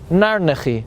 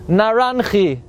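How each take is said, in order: First: The term is said as Narnechi. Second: The term is said as Naranchi. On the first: The speaker calls it right. "or more correctly pronounced" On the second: The speaker calls it wrong. "the Kabbalah calls it Naranchi"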